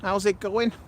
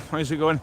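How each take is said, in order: First: It is said in a Scouse accent. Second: It is said in the speaker's normal accent.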